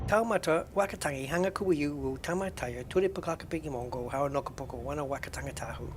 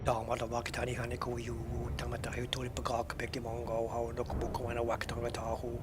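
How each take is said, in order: First: The voice is at its normal, higher pitch. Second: The voice is pitched a little lower.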